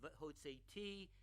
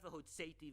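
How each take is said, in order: First: The stress falls on the final syllable. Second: The stress falls on the second-to-last syllable. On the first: I will take you out. The speaker calls it right. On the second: And I took you out. The speaker calls it wrong. "It's not"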